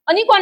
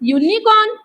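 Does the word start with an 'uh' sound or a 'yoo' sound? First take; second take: uh; yoo. First: The word starts with an 'uh' sound. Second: The word starts with a 'yoo' sound. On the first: The speaker calls it wrong. "अनिकॉर्न नाही म्हणत आपण" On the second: The speaker calls it right. "य सारखा करतोय"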